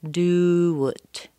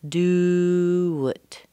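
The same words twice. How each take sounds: No difference in how they are said.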